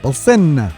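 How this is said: It is said with an Italian accent.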